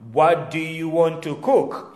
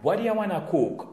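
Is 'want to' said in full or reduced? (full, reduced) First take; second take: full; reduced. First: Want to is said as two full words. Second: Want to is reduced to one word, wanna.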